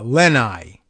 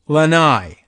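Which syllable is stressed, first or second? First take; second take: first; second. First: The stress is on the first syllable. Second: The stress is on the second syllable. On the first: The speaker calls it wrong. "stress is on the first syllable" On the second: The speaker calls it right. "It's on the second"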